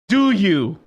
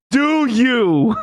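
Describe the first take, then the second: First: Louder, pointed question; a firm, louder challenge; challenging question. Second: Loud, high, drawn-out question; big mocking challenge, raised pitch; emphatic challenge. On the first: Acted. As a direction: put it to them pointedly. First take of challenging question. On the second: Repeats the question, louder and drawn-out.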